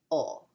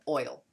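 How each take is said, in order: First: Southern "ol" with the diphthong flattened to a plain o. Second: "oil." with a full oi glide. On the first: Teacher showing a Southern pronunciation of oil, Southern accent. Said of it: "if you're in the South you say". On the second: Teacher contrasting with the Southern form, careful oil. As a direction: say "oil." with both vowels clear. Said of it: "instead of". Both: Shown as a demonstration.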